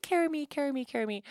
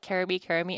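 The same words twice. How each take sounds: First: High, imitating a toddler's nagging whine; mother imitating her toddler's endless plea; whiny toddler. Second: Said in the usual way. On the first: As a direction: mimic a child begging to be carried. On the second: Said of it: "which is Swedish for".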